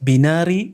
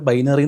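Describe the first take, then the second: First: The first syllable has a short 'i' sound. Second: The first syllable sounds like 'bye'. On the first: The speaker calls it wrong. "അത് ബിനാറി ബൈനാറി circus" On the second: The speaker calls it right. "ചിലർ ബൈനറി എന്ന് വായിക്കത്തില്ല"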